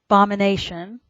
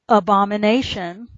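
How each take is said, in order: First: The opening 'uh' vowel sound is left off. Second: The word starts with a clear 'uh' vowel. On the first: The speaker calls it wrong. "I deliberately said the word incorrectly" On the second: The speaker calls it right. "then I'll pronounce it correctly this time"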